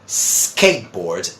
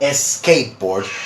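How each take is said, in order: First: The word begins directly with the s sound. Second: An extra vowel sound comes before the s. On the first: The speaker calls it right. "in English we say" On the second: The speaker calls it wrong. "they try to add a vowel sound before it"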